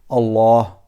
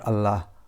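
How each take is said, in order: First: The l is said thick and heavy. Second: The l is said thin and light. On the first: The speaker calls it right. "you have to say it a bit um, thick voice, like Allah" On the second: The speaker calls it wrong. "not Allah"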